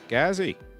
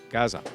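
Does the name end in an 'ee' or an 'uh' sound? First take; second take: ee; uh. First: The name ends with an 'ee' sound. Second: The name ends with an 'uh' sound. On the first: The speaker calls it wrong. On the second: The speaker calls it right.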